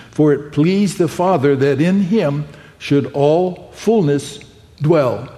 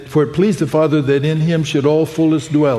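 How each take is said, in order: First: Slow down on "in", then pause before "fullness" and again before "dwell"; emphasis on fullness and dwell. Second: Said in the usual way. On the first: Shown as a demonstration. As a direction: lean on "fullness" and set "dwell" apart with a pause. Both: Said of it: "Let me put a little emphasis on that again".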